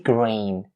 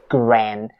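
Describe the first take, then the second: First: The vowel is a long 'ay' sound. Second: The vowel is a short 'eh' sound. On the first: The speaker calls it right. "It has to be grain. It aims out the A sound" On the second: The speaker calls it wrong. "make sure you don't turn its vowel into eh or ah"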